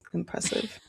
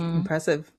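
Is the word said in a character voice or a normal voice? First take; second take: character voice; normal voice. First: It is said in a put-on character voice. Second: It is said in the speaker's normal voice.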